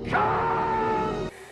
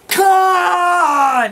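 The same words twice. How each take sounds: First: It is shouted as Kirk, less angrily. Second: It is shouted as Spock, furiously.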